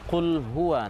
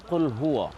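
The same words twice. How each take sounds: First: The final syllable is pronounced 'wa'. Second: The final syllable is pronounced 'wo'. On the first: The speaker calls it right. "bila dia berbaris fathah maka dibaca wa" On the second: The speaker calls it wrong. "bukan dibaca wo"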